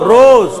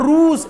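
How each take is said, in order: First: The vowel is a mid 'o' sound. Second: The vowel is a close 'u' sound. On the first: The speaker calls it right. "ও উচ্চারণ" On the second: The speaker calls it wrong. "এটা রুজ এরকম না"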